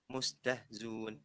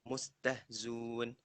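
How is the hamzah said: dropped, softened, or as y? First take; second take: dropped; dropped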